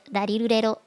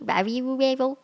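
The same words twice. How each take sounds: First: Each syllable starts with a sound between L and R. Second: Each syllable starts with a full R sound. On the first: The speaker calls it right. "it's in the middle of the two" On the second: The speaker calls it wrong. "like a real R sound"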